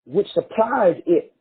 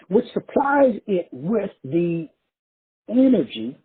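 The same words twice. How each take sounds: First: Said in the usual way. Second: Slow, deliberate repeat of the phrase. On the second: Shown as a demonstration. Preacher slowing down to repeat his point, slow and deliberate. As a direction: spell it out slowly for the crowd. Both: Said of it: "Let me say it again real slow".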